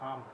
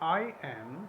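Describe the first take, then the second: First: It is blended into one short syllable. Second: It is said as two separate words.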